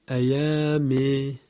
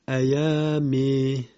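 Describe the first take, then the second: First: The final vowel is tilted toward 'e'. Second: The final vowel is tilted toward 'e'.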